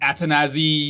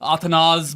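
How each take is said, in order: First: The name ends with a 'zee' sound. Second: The name ends with a short 'az' sound. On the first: This is how many people have said it. "a lot of people have pronounced his names in different ways" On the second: This is another version heard from others. "बहुत चीजें सुनी है मैंने"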